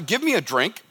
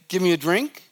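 First: The request sounds blunt and demanding. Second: The request sounds gentle and polite.

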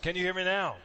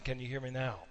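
First: It is said in a raised voice. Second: It is said at a normal volume.

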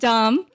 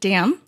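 First: The vowel is open, like in 'father'. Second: The vowel is front, like in 'cat'. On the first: This is how the family says the name. The speaker calls it right. "my last name is pronounced Dom" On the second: This is how outsiders say the name. The speaker calls it wrong. "a lot of Americans pronounce it Dam"

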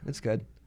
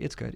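First: It is said in a sad, flat tone. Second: It is said in a brighter, upbeat tone. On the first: The praise sounds reluctant. The speaker calls it wrong. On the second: The praise sounds sincere. The speaker calls it right.

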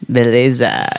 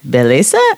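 First: It is said as an answer, falling. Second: It is said as a question, rising.

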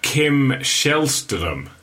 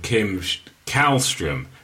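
First: The name is pronounced the Swedish way. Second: The name is pronounced the English way. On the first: The speaker calls it right. "Lovely pronunciation" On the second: The speaker calls it wrong. "Many other people from the UK would have called him"

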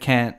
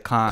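First: The word is said with an American vowel. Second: The word is said with an Australian vowel. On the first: "instead of saying can't" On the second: "I'll say can't"

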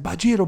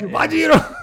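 First: The word is said at normal volume. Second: The word is said more loudly.

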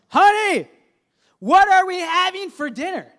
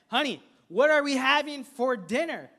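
First: It is yelled loudly. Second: It is spoken, only slightly annoyed.

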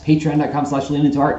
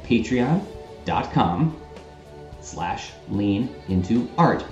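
First: It is said at normal speed. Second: It is said more slowly.

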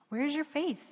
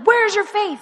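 First: It is said in a calm tone. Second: It is said in an angry tone.

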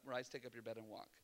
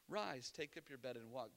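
First: It is said curtly and with impatience. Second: It is said gently and with compassion.

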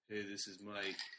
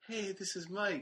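First: The voice cracks as it is said. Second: The voice stays steady without cracking.

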